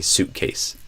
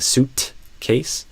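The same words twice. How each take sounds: First: The T stops in the throat without release. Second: The T is audibly released before the K. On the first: It sounds like everyday speech. "You don't hear an audible release for the T" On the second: It sounds like very clear, careful speech. "when they're speaking very clearly"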